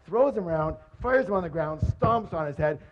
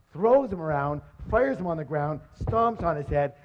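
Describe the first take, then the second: No difference in how they are said.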